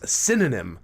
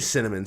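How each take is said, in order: First: The word is pronounced like synonym. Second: The word is pronounced as cinnamon. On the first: The speaker calls it wrong. "She says synonym" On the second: The speaker calls it right. "she can't say cinnamon"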